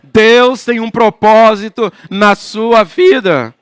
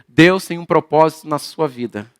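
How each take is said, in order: First: It is said in a solemn prophet's voice. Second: It is said in an ordinary, plain voice.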